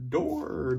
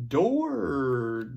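First: Said in the usual way. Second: Door called out louder, drawn out; loud model word. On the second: Shown as a demonstration. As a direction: present Door clearly to the class.

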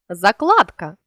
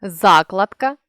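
First: Закладка with КЛАД stressed; stress on middle syllable. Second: Закладка with ЗА stressed; stress on first syllable. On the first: Teacher means laying a foundation, закладка stressed on КЛАД. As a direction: lean on КЛАД inside закладка. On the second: Teacher means a bookmark, Закладка stressed on ЗА. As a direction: punch the opening ЗА of Закладка. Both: Shown as a demonstration. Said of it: "залежно від наголосу".

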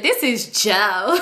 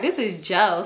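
First: Slow, drawn-out mimicry of the girl; mocking imitation. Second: Said in the usual way. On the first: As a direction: stretch it out to make fun of her. Mocking girl announcing her caller.

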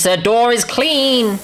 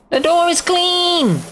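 First: Slow, high exclamation; playful celebration. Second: Very high, drawn-out squeal; squeaky celebration. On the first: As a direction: announce it in drawn-out triumph. Celebrates, first take. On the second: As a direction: repeat it in a silly high voice. Celebrates again, much higher. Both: Pretend.

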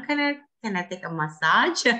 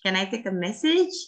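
First: "massage" as muh-SAHJ, stressed ending; mistaken massage. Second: "message" with stressed MESS, short ending; pronounced as message. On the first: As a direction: swap in "massage", long AH in second syllable. ("massage" diucapkan ma-SAAJ, contoh yang tertukar) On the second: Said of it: "jangan sampai ketuker". ("message" diucapkan MÈ-sij, tekanan di depan) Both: Shown as a demonstration.

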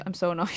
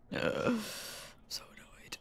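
First: Said in the usual way. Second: Softer whispered I'm so annoyed; whispered complaint. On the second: Real, not acted. Streamer whispering that she's annoyed. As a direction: breathe the words out, voiceless.

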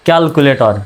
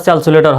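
First: ক্যালকুলেটর said with k sounds, "kyal-ku-le-tor"; hard k in both places in ক্যালকুলেটর; correct pronunciation demo. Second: ক্যালকুলেটর said with s sounds, "syal-su-le-tor"; mispronunciation demo. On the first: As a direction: model ক্যালকুলেটর as "kyalkuletor", falling at the end. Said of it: "সঠিক উচ্চারণটা কেমন হবে". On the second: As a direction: swap both k sounds in ক্যালকুলেটর for s. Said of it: "এটা হলো ভুল উচ্চারণ". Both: Shown as a demonstration.

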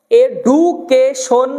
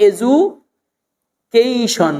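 First: "এডুকেশন" as e-du-ke-shon, hard d; old-style "এডুকেশন", no glide on ke; backdated pronunciation. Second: "এজুকেশন" as e-ju, then a long kei-shon; smart pronunciation. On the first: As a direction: say "এডুকেশন" syllable by syllable with plain du. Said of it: "এটা backdate উচ্চারণ". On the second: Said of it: "যদি আপনি smart হতে চান". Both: Shown as a demonstration.

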